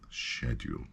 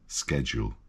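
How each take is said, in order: First: The word is said with a British pronunciation. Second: The word is said with an American pronunciation. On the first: The speaker calls it right. "In English, we say schedule" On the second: The speaker calls it wrong. "because that's American"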